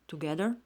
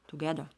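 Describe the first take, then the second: First: The final 'er' sound is pronounced. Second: The final 'er' sound is dropped.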